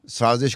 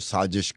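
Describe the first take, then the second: First: The middle consonant is a buzzing 'z' sound. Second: The middle consonant is a 'j' sound. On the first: This is the standard Urdu pronunciation. "ज़ को ज pronounce करते हैं" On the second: This is how people in parts of India say it. "A जे I S H"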